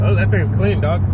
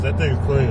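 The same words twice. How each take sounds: First: Lightly voiced hype sneaker reviewer; a hint of a hyped-up car show host; Fresh Kicks voice. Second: Said in the usual way. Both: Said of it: "My Fresh Kicks voice".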